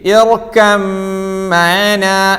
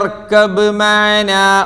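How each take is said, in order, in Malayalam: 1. b പൂർണ്ണമായും ഇരട്ടിച്ച m-ൽ ലയിക്കുന്നു. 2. m-ന് മുമ്പ് b ശബ്ദം ഉച്ചരിക്കുന്നു. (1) "ബാഇന്റെ ഉച്ചാരണം തീരെ ഇല്ല" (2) "ആരെങ്കിലും അവിടെ യാ ബുനയ്യ ഇർകബ് മഅനാ ഓതിയോ?"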